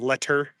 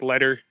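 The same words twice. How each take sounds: First: The middle consonant is a clear T. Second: The middle consonant sounds like a soft D. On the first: "instead of" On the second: "we use D's instead of T's in the middle of words"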